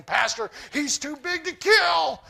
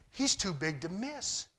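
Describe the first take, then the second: First: Higher, louder, slow mock panic; scared soldiers. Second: Calm confidence. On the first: Israelite soldiers telling the pastor the giant is too big, mock fear. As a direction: whine it like frightened troops. And they're shaking. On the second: Retold or imitated. David, filled with the Spirit, sizing up the giant, calm confidence. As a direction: say it like the answer is obvious.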